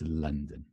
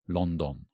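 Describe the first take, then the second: First: Both vowels are short uh sounds. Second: Both vowels sound like the letter o. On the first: The speaker calls it right. "the same sound in the second syllable. It's an upside down E" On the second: The speaker calls it wrong. "it's not London, right? Sounds weird"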